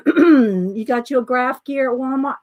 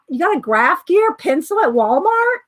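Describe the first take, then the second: First: Said in the usual way. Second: Higher, rising in surprise; real surprise, pitch climbing to "Walmart"; surprised question. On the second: Real, not acted. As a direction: repeat it as an incredulous question. Surprised reaction to viewer's news.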